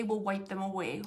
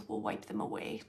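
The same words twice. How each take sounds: First: Said in the usual way. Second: Much lower, soft whispered repeat; tender whisper. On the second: Retold or imitated. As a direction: whisper it as a gentle comfort. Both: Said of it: "They're saying, like".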